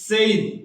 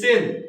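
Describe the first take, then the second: First: The vowel glides from 'e' to 'i'. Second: The vowel is a plain 'e' sound. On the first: The speaker calls it right. "উচ্চারণটা হবে সেইন" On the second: The speaker calls it wrong. "আমরা যেটা বলি সেন"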